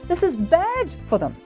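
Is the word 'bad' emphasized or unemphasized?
emphasized. The word bad is emphasized, the rest quicker. The speaker calls it right. "speed up a little, but you want to emphasize the word bad"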